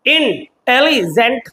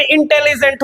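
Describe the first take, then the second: First: intelligent drawn out slowly, syllable by syllable, rising at the end; slow syllable demo. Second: Said in the usual way. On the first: Shown as a demonstration. Teacher counting the syllables of intelligent for students, slowly and clearly. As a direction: stretch out intelligent slowly so each syllable is heard. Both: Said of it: "तीन words है".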